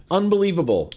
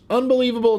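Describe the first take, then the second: First: Said in the usual way. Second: Exasperated. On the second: Real, not acted. Outrage repeated louder.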